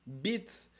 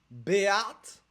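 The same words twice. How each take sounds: First: "bite" said as one short syllable; the intended word "bite", in one syllable; intended pronunciation. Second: "béate" split into two syllables, bé-ate; exaggerated wrong take, "béate" stretched out; mispronounced word. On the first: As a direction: say "bite" as a single clean syllable. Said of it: "tu veux dire bite". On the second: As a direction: mangle it loudly as "béate", drawn out in two beats. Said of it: "tu me dis béate". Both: Shown as a demonstration.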